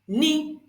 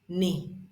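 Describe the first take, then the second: First: The syllable is said on a high pitch. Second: The syllable is said on a low pitch. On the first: "The third one is the high tone" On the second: "This is the low tone"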